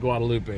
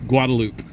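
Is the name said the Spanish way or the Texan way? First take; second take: Spanish; Texan. First: The name is pronounced the Spanish way. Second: The name is pronounced the Texan English way. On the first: The speaker calls it right. "they would never say" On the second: The speaker calls it wrong. "That's how Texans pronounce it"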